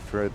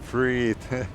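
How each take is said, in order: First: The first vowel is kept short. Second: The first vowel is drawn out long. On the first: This is the former way of saying it. "I used to say like uh" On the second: This is the current way of saying it. "now I make the E longer"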